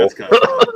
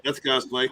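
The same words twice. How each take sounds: First: Squeaky high-pitched verdict; high squeal. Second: Said in the usual way. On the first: Pretend.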